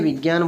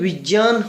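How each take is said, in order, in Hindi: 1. यह संयुक्ताक्षर आम बोलचाल के gy ढंग से बोला जाता है। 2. यह संयुक्ताक्षर j और नासिक्य ध्वनि को मिलाकर बोला जाता है। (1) "लेकिन हम क्या करते हैं, विज्ञान बोल देते हैं" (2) "उच्चारण की दृष्टि से ये विज्ञान होता है"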